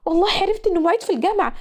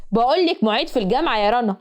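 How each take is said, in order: First: Higher and fast, tired of hearing it; fed-up mocking echo. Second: Said in the usual way. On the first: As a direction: throw back معيد في الجامعة fast and high, sick of the words. (بتعيد معيد في الجامعة بسرعة وبصوت عالي بزهق) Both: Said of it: "والكلمة خرمت طبلة ودني".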